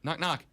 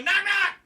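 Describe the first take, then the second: First: It is said calmly at normal volume. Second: It is yelled loudly. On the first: "He just opens the door and goes" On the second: "And he doesn't yell it. He doesn't go"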